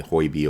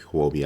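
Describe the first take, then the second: First: Huobi, first of two alternative pronunciations; first guess at Huobi. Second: Huobi, the alternative pronunciation; second guess at Huobi. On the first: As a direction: offer one tentative way to say Huobi. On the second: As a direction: offer the other tentative way to say Huobi. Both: Shown as a demonstration. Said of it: "I don't know how to pronounce it".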